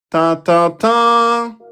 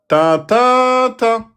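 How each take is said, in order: First: The last syllable is long and prominent. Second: The middle syllable is long and rises. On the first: "c'est le troisième qui a la voyelle longue" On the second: "C'est le milieu qui, qui monte"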